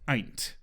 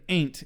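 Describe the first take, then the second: First: The word is said with a British-sounding vowel. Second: The word is said with an American-sounding vowel. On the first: The speaker calls it right. "which is very British" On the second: The speaker calls it wrong. "instead of ain't"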